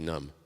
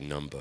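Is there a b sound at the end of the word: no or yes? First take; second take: no; yes. First: The word ends in m, no b sound. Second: The word ends with an audible b sound. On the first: The speaker calls it right. "You say numb" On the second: The speaker calls it wrong. "You don't say numba"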